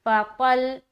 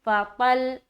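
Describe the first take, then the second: Both takes have the same delivery.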